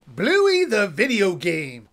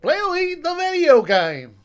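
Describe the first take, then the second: First: It is said in the speaker's usual accent. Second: It is said in a put-on Australian accent.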